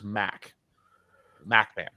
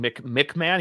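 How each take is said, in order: First: The first syllable has an open 'a' vowel. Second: The first syllable has a short 'i' vowel. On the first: This is how the person wants his name said. The speaker calls it right. "he prefers" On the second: This is the usual way the name is said. The speaker calls it wrong. "instead of being"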